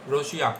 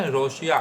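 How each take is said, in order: Both takes have the same delivery.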